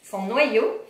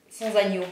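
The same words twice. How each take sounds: First: « Sans noyau » redit clairement pour corriger, « noyau » bien détaché; correction. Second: « sans agneau » lu par erreur à la place de « sans noyau »; lecture ratée. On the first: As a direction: appuyer sur « noyau » pour rectifier. (« noyau » articulé nettement après le lapsus) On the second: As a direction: dire « agneau » comme si c'était écrit sur l'étiquette. (lapsus de lecture sur « agneau ») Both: Real, not acted.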